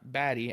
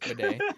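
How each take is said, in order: First: The name sounds like 'batty'. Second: The name sounds like 'bidet'. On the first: The speaker calls it wrong. "not Batty as it looks like it's pronounced" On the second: The speaker calls it right. "it's Bidet"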